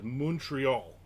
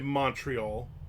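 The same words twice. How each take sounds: First: It is said in a local French-style way. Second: It is said in a New Jersey-style way. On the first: This is how the locals say it. The speaker calls it right. "He always says Montreal" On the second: This marks the speaker as an outsider. The speaker calls it wrong. "You don't say Montreal. Stop being like you're from New Jersey"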